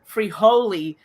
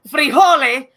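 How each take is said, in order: First: The name is said with an anglicized pronunciation. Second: The name is said with a Spanish pronunciation. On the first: The speaker calls it wrong. "have everyone call him" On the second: The speaker calls it right. "the actual pronunciation"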